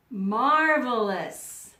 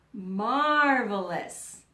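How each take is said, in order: Both takes have the same delivery.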